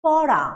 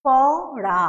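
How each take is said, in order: First: পড়া said loudly in one go; loud whole word. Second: পড়া split into প and ড়া, loud; syllable by syllable. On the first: Teacher calls out a word to students as a whole. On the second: Teacher beats out the two syllables for students. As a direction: beat out পড়া in two parts. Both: Shown as a demonstration. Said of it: "মানে ধ্বনি দুইবার উচ্চারণ করছি".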